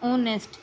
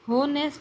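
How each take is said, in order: First: The word begins with a vowel, no h. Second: The word begins with an audible h sound. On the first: The speaker calls it right. "इसे हम बोलते हैं ओनेस्ट" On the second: The speaker calls it wrong. "होनेस्ट या ओनेस्ट"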